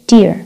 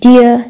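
First: "dear" with the final r sounded; American R. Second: "Dear" ending in a schwa, "dee-uh"; British silent R. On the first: Teacher contrasting American "dear" with sounded r. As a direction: finish "dear" on a clear r. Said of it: "هنا بالأمريكي". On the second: Teacher contrasting British "Dear" as "dee-uh". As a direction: leave the r off "Dear". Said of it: "بالبريطاني". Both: Shown as a demonstration.

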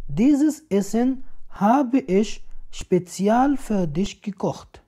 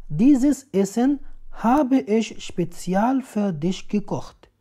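Both takes have the same delivery.

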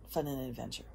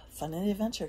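First: Said in the usual way. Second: Higher, louder call of the motto; emphatic motto. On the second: Real, not acted. Rallying her viewers with the motto, higher and louder. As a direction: sell the catchphrase with a lift.

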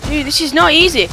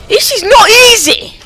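First: Higher-pitched exasperation; frustrated complaint. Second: Very high, loud exasperated cry; frustrated outburst. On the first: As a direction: complain as the game gets too hard. Frustrated with the game. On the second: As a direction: yell it with NOT punched hard. Frustration escalates at the game. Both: Real, not acted.

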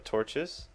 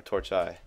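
First: Said in the usual way. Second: "torch eye" for torches, ending like eye; mock Latin plural. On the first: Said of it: "it's just torches, I'm pretty sure". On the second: Shown as a demonstration. Gamer weighing two plurals, "torch eye" with an eye ending. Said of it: "I wonder if it's torch eye".

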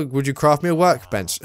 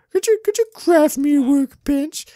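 First: Said in the usual way. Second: Very high-pitched mock pleading; silly put-on voice. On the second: Player asking for a workbench, silly high voice. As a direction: squeak the request out in a silly high voice.

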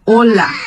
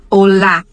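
First: "olá" stressed on the first O; Spanish "olá" stressed at the start. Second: "olá" stressed on the final lá; Portuguese "olá" stressed at the end. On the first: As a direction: lean on the O of "olá". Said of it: "Em espanhol". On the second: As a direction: hit the lá of "olá". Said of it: "E em português". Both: Shown as a demonstration.

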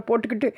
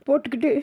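First: போட்டுக்கிட்டு said first, slightly high, breaking off; போட்டுக்கிட்டு cut short, catching a light sob; halting sob. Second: போட்டுக்கிட்டு repeated higher, voice climbing into a cry; போட்டுக்கிட்டு pushed up higher through a sob; rising sob. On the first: Boy breaks off on போட்டுக்கிட்டு, light sob. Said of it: "நிறுத்தி நிறுத்தி". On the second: Boy repeats போட்டுக்கிட்டு higher, welling up. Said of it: "நிறுத்தی நிறுத்தி". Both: Acted.

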